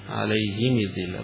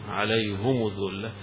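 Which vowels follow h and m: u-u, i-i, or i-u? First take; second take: i-i; u-u. First: Both the h and the m take i vowels. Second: Both the h and the m take u vowels. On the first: "بالكسر" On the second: "يضم ضمتين"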